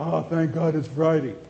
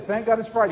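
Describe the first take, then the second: First: It sounds weary and worn out. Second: It sounds eager and glad.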